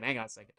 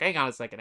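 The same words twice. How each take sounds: First: Much softer Hang on a second; quieter repeat. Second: Said in the usual way. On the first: Real, not acted. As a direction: mutter it half to yourself.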